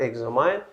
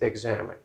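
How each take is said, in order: First: The last syllable rhymes with 'mine'. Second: The last syllable sounds like 'min'. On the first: The speaker calls it wrong. "it's not examine" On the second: The speaker calls it right. "it's examine"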